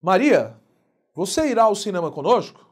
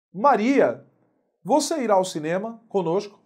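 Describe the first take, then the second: First: Maria called out louder, then a pause; vocative intonation. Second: Teacher tries the sentence before redoing it; first take of the line. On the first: Teacher redoes it to show the vocative intonation. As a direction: call out Maria, then ask. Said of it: "olha a entonação". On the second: Teacher's first take, Maria called out. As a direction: redo the vocative Maria with a pause. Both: Shown as a demonstration.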